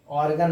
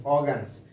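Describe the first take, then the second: First: ऑर्गन with a clear r after the o; ऑर्गन, r pronounced, the form to avoid; r sounded, the wrong way. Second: ऑर्गन्स said as aw-gens with the r dropped; ऑर्गन्स with a silent r, as taught; silent r, the right way. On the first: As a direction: say ऑर्गन with the r rolled in, as the mistake. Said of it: "ऑर्गन नहीं". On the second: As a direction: drop the r in ऑर्गन्स after the vowel. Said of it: "pronounce क्या करेंगे". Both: Shown as a demonstration.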